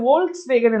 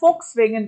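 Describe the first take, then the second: First: The word begins with a V sound. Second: The word begins with an F sound. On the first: The speaker calls it wrong. "Actually இது வோல்க்ஸ் வேகன் இல்ல" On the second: The speaker calls it right. "ஃபோக்ஸ் வேகன் அப்படின்னு சொல்லுவாங்க"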